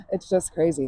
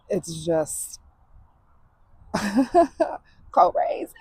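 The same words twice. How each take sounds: First: Said in the usual way. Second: Breathless teary whisper. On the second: Real, not acted. Emotional breakdown into laughter.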